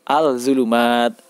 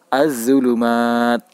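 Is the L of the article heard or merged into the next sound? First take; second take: heard; merged. First: The article's L sound is clearly pronounced. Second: The L merges into a doubled Z sound. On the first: The speaker calls it wrong. "tidak dibenarkan bila membaca al-zulumat" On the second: The speaker calls it right. "Cara membacanya yaitu az-zulumat"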